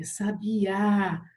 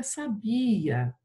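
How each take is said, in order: First: "sabiá" slow, with a long strong last Á; stress on final Á. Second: "sabia" with a drawn-out BI and weak final A; stress on BI. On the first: Teacher correcting the misread poem, stressed on final Á. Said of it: "colocar o acento agudo no A". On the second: Teacher warning what it becomes without accent, stressed on BI. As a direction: say "sabia" as saBIa, stretching BI. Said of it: "senão fica sabia". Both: Shown as a demonstration.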